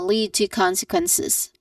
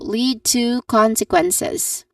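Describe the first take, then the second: First: The word 'to' is reduced and said quickly. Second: The word 'to' has a full, longer vowel. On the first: This is natural conversational speech. "often reduced to a soft uh, vowel sound" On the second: This is formal, academic pronunciation. "It's a bit longer but not too long"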